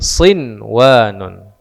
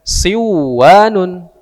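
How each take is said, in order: First: The n is pronounced clearly before the w. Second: The n merges into the w and disappears. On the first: The speaker calls it right. "tapi sinwanun" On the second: The speaker calls it wrong. "bukan dibaca siwanun"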